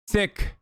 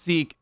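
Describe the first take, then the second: First: The vowel is short, like 'sick'. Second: The vowel is long, like 'seek'. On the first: The speaker calls it right. "It's sick" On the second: The speaker calls it wrong. "It's not pronounced Sikh"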